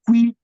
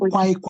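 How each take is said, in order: First: The vowel sounds like 'ee'. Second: The vowel sounds like 'eye'. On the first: The speaker calls it right. "is qui" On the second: The speaker calls it wrong. "Not quai"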